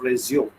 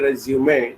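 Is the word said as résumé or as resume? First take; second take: resume; résumé. First: It is said in the plain resume form. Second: It is said in the accented résumé form. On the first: To continue something. The speaker calls it wrong. "not resume" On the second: A document listing one's experience. The speaker calls it right. "it needs to be pronounced as resume. Both the accent marks will give you a typical pronunciation"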